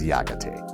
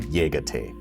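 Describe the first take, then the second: First: It is said in a mountain dialect. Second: It is said in a standard way.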